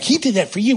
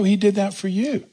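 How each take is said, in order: First: It is said in a scolding, accusing tone. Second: It is said in a tender, gentle tone.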